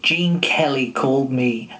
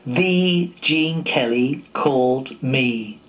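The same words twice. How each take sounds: First: Said in the usual way. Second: The stretched out slow and leaned on, the whole line drawn out; stress on The. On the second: A narrator's reading. Narrator marvelling that the star himself rang, slow stress on The. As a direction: savour the word The like he can't believe it. Repeating the message in awe.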